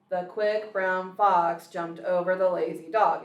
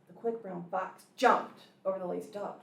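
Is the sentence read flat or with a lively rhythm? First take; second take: flat; rhythmic. First: It is read flat, without rhythm. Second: It is read with a lively, bouncing rhythm.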